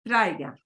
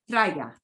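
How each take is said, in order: No difference in how they are said.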